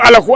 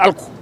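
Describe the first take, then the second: First: An extra vowel separates the l and the k. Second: The l and the k are said together. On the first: Someone who does not speak Wolof well said it. The speaker calls it wrong. "vous avez passé tout votre temps pendant votre réquisitoire à ne parler de alakou" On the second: It is the proper Wolof form. The speaker calls it right. "au lieu de alkou"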